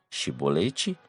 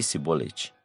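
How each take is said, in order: First: The word begins with a 'sh' sound. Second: The word begins with an 's' sound. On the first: The speaker belongs to the Gileadites. The speaker calls it right. "pronunciar o som de C H" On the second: The speaker belongs to the Ephraimites. The speaker calls it wrong. "o si, Sibolete"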